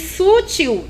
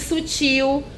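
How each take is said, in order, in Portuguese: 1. A sílaba tônica é a primeira. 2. A sílaba tônica é a última. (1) "E se coloca o acento no lugar errado" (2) "em vez de"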